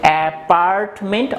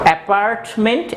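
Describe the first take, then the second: First: It is said with an American accent. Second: It is said with an American accent.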